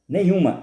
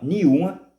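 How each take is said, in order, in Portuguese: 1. As consoantes NH e M são totalmente pronunciadas. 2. As consoantes NH e M são omitidas.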